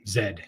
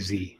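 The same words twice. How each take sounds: First: The letter is said the Canadian way. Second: The letter is said the American way. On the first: This is how Canadians say it. "Except for Karen up in Canada. She would say Z" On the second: This is how the speakers' own community says it. "we say Z"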